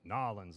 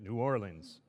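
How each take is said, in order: First: The city name is squeezed into fewer syllables. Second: The city name is said in full.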